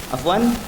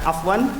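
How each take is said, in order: Both takes have the same delivery.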